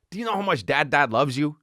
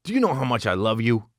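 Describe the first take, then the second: First: Put-on lifted, cooing question to a little kid; sing-song to a toddler. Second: Said in the usual way. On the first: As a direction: coo it up like talking to a two-year-old. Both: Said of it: "often say it like".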